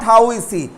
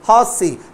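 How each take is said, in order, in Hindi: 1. 'How' और 'is' अलग-अलग शब्दों की तरह बोले जाते हैं। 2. 'How is' एक ही अक्षर में संकुचित होकर बोला जाता है। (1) "नॉट" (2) "हाउ इज अगर लिखा रहेगा तो बोलेंगे हाउस"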